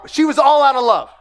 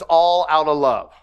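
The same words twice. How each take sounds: First: Said in the usual way. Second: Sung, slip into the song lyric, then catch yourself; sung, sung song line. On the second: Retold or imitated. Pastor half-sings the love song lyric to the congregation. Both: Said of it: "not like this, that song".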